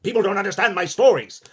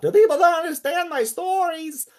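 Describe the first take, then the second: First: Loud, high, projected complaint; stage shouting. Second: Very high, slow, reedy holler; piping Lovecraft shout. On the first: Lovecraft shouting at Sonia, projected stage shout. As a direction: project it to the back of the theatre. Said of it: "shouting at Sonia about". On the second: Actor showing how Lovecraft would have actually talked, high piping shout. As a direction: draw it out in a loud, strained piping screech. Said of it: "not presumably how he would have actually talked". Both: Acted.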